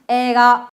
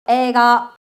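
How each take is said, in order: First: The first syllable is one long drawn-out vowel. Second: The same.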